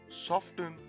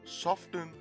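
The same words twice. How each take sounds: First: The T sound is clearly pronounced. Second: The same.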